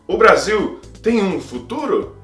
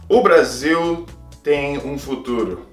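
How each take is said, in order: First: The voice rises at the end. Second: The voice falls at the end.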